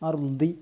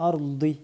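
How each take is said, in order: The two takes are said the same way.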